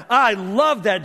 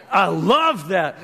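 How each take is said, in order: First: Said in the usual way. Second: Savoring. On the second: Real, not acted.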